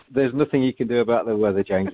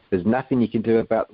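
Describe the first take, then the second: First: Said in the usual way. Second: Put-on a near South African accent, meant as Australian; slipping into a South African accent. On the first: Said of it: "I'm just gonna do it in English". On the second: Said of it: "well, that was nearly South African".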